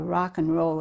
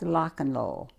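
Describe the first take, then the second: First: The first word begins with an R sound. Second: The first word begins with an L sound. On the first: The speaker calls it right. "instead of uh" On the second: The speaker calls it wrong. "They couldn't pronounce the R"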